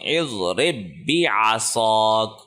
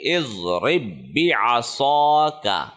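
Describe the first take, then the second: First: The phrase ends on a bare consonant. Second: The phrase ends with a final vowel sound. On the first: The reader stops at this word. "वफ़ की सूरत में" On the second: The reader continues without stopping. "इसको हम पढ़ेंगे"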